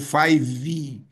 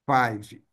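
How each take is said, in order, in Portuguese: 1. A palavra termina com uma vogal final extra. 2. A palavra termina sem uma vogal final extra. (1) "a tendência é colocar five ou five, que é incorreto" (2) "Não tem esse E"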